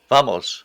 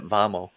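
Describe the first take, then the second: First: The final s sound is clearly pronounced. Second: The final s sound is left off. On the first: The speaker calls it right. "I was saying that without the s at the end" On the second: The speaker calls it wrong. "think I said it vamo"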